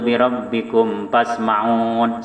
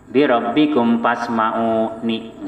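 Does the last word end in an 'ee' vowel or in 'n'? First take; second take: n; ee vowel. First: The last word ends cut off on 'n'. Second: The last word ends with a final 'ee' vowel. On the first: The speaker calls it wrong. "Nggak boleh kita baca ... Salah" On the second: The speaker calls it right. "Yang betul itu"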